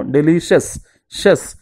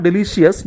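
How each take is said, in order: First: "delicious" ending in one syllable, "shes"; corrected pronunciation. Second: "delicious" with an extra syllable, de-li-shi-yes; wrong pronunciation. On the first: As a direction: say "delicious" as de-li-shes, then repeat "shes". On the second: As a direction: mispronounce "delicious" with a shi-es ending. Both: Shown as a demonstration. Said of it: "It is not delicious".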